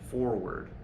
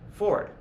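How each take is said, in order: First: The word is said fully with two syllables. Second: The word is reduced to one syllable. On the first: "It's harder to articulate forward" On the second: "very commonly with native speakers of American English, we just say Ford"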